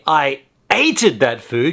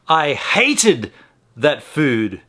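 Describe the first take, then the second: First: The verb starts with a vowel sound. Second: The verb starts with an h sound. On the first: The speaker calls it wrong. "you'd be ignoring the H" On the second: The speaker calls it right. "Just like when you say"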